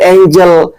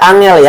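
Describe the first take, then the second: First: The word is pronounced like an English word. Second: The word is pronounced like a Javanese word. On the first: The speaker calls it right. "Dibacanya kerub angel" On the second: The speaker calls it wrong. "jangan dibaca angel ya, itu bahasa Jawa"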